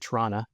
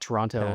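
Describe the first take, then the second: First: Toronto is said the Canadian way. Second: Toronto is said the American way. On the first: The speaker calls it right. "I should say Toronto" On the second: The speaker calls it wrong. "not Toronto, like how our American friends say it"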